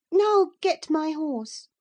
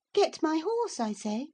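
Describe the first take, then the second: First: High, loud, slow order with NOW stressed; "Now get my horse" commanded like a little mistress, falling at the end; imperious girl. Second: High order with GET pushed up; "Get my horse" snapped up at the end, impatient; impatient girl. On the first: Cathy orders her unknown cousin like a stable boy, haughty. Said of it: "she said". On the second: Cathy repeats her order to Hareton, impatient. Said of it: "repeated order, impatient". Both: A narrator's reading.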